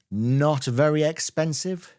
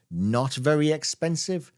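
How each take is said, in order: Both takes have the same delivery.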